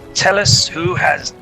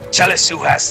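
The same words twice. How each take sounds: First: It is said in a normal speaking voice. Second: It is said in a gruff put-on pirate voice.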